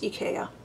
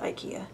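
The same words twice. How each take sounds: First: It is said the original, non-American way. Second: It is said the usual American way. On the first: "I know it's IKEA" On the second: "in America we pronounce it IKEA"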